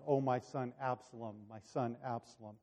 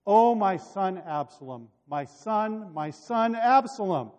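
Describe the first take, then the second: First: Soft, hushed lament; subdued echo of grief. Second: Higher, louder lament; narrated cry of mourning; crying out in grief. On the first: Retold or imitated. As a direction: recall the cry quietly, well below full voice. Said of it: "terribly wonderful about that cry". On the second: A narrator's reading. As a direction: wail the name as a bereaved father, without sobbing. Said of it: "burst into tears ... he cried".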